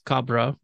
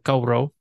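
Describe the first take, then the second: First: The word is said with a hard b sound. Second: The word is said with a softened w sound.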